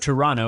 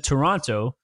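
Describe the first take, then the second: First: It is said the way Toronto locals say it. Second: It is said the ordinary, non-local way.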